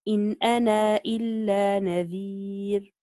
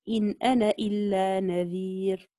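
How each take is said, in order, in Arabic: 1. الحركة الأخيرة في 'ana' ممدودة مدا قصيرا. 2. الحركة الأخيرة في 'ana' قصيرة، لا تُمدّ. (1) "بوجه القصر إذا أثبت الألف" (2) "وجه الحذف"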